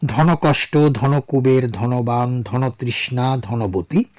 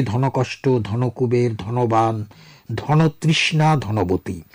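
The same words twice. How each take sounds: First: ধনকষ্ট ধনকুবের ধনবান ধনতৃষ্ণা ধনবতী with ধন said as dhono, the middle vowel like o; compound pronunciation demo. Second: ধনকষ্ট ধনকুবের ধনবান ধনতৃষ্ণা ধনবতী with ধন as dhono, vowel like o; compound pronunciation. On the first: Teacher reading compound words to radio listeners, ধন spoken as dhono. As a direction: say each ধন compound slowly, ধন as dhono before the second part. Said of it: "যেমন আমি কয়েকটি শব্দ বলছি".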